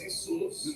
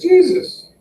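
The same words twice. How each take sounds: First: The name starts with a Spanish H sound. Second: The name starts with an English J sound. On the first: It refers to an ordinary local guy. "If it's holy shit, that's Jesus" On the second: It refers to the holy religious figure. "If it's all holy, that's Jesus"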